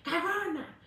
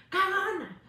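First: Mock taunt. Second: Taunting "cagona" pitched up high; mocking crowd jeer, rising to a louder "cagona". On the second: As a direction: jeer "cagona" like a heckler, louder the second time. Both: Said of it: "que le llamen".

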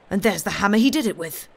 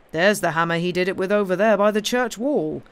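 First: Fast, loud, raised accusation; excited cry. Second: Firm, louder, measured statement; sensible correction. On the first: Cobbler spotting the hammer on the smith's shoulder, excited cry. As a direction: burst out with it, quick and louder. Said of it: "cried the atheistic cobbler". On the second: Inspector correcting the cobbler about the hammer, sensible and firm. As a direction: point it out firmly, less hurried. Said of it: "said the inspector, a sensible-looking man". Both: A narrator's reading.

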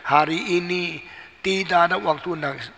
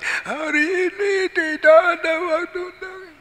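First: Said in the usual way. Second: Very high, sustained mock wail; wailing child. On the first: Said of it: "Ikut saya bilang". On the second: Child echoes father again, very high mock wail. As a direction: bawl it on one high, crying note. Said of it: "Dia ikut lagi".

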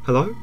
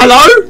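First: Small, soft, low question; tentative call. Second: High, loud questioning call. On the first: Player checking who is there, tentative. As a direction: call out warily, very softly. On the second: Player calling to whoever is there, loudly. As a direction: call out insistently, pitched up. Calls again louder. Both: Real, not acted.

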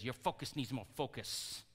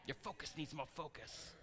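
First: Softer, lightly imitated Chinese accent; badly faked Chinese-accented mentor; terrible Chinese impersonation. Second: Very soft, badly faked Chinese accent; hushed mock Chinese-accented mentor; terrible Chinese impersonation. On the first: Jackie Chan's character advising the boy, mock Chinese accent. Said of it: "terrible Chinese impersonation". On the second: Movie mentor advising the boy, hushed fake Chinese accent. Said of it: "Is that a hor-, terrible Chinese impersonation?".

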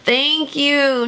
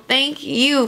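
First: Said in the usual way. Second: Slow "thank you" leaning on "you"; "you" stressed and drawn out. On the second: Real, not acted. Letter turns the thanks around.

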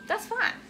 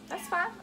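First: High, pointed "That's fine" with a rise; sarcastic "fine". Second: Softer, resigned "That's fine"; muttered "fine". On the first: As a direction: say it with a tight sarcastic lilt. Sarcastic after husband's attitude. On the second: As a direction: let it drop under your breath. Repeating it quieter. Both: Real, not acted.

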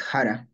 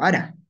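First: Jara starting with h; J variant. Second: Ara starting on the vowel; dropped-onset variant. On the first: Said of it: "tu variante que es Jara". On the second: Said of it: "yo digo Ara". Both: Shown as a demonstration.

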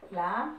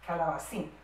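First: CALABACÍN split as ca, la, ba, cín; syllable by syllable. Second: Said in the usual way. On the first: Shown as a demonstration. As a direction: separate each syllable of CALABACÍN with a clear pause. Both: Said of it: "a separar en sílabas".

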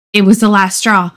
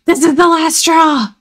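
First: Said in the usual way. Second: Higher, shouted last straw; fed-up outburst. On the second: Acted. Boy fed up with the other tree, shouting. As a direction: throw up your hands and yell it. Norman explodes at rival tree.

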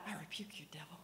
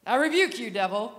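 First: Soft, hushed command under the breath; quiet rebuke. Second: A loud, forceful command; loud rebuke. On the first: Retold or imitated. Over the man on the floor, not wanting a scene, quietly. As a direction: say it low so nobody notices. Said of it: "'cause I didn't wanna make a scene". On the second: Shown as a demonstration. Showing the crowd the loud way he did not pray, booming. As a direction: bark it at the devil. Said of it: "Not like that".

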